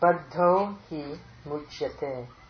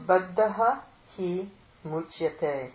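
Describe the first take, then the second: First: The words are run together into one form. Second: The words are split into separate forms.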